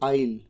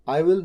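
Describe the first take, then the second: First: It is said as one contracted syllable. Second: It is said as two separate full words. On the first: The speaker calls it right. "तो बोला कैसे गया? आइल" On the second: The speaker calls it wrong. "आई विल नहीं"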